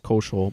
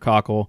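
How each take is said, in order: First: The name is said like Koschel. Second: The name is said like Cockle. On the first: The speaker calls it wrong. "We were mispronouncing his name as Koschel" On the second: The speaker calls it right. "but it's Andrew Cockle"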